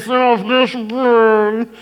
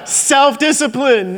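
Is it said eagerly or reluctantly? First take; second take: reluctantly; eagerly. First: It is said with weak, reluctant energy. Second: It is said with eager, strong energy.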